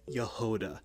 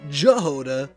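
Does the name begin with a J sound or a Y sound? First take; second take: Y sound; J sound. First: The name begins with a Y sound. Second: The name begins with a J sound. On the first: The speaker calls it right. "I know now that it's Yehoda" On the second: The speaker calls it wrong. "not Jehoda"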